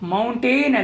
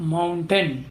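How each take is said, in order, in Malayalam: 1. രണ്ടാം അക്ഷരം പൂർണ്ണമായ 'ain' ശബ്ദമാണ്. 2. രണ്ടാം അക്ഷരം ലഘൂകരിച്ച 'un' ശബ്ദമാണ്.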